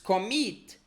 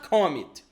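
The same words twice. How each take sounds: First: The stress is on the second syllable. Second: The stress is on the first syllable. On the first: The speaker calls it right. "It's commit. Then we have stress on the second syllable" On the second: The speaker calls it wrong. "It's not commit"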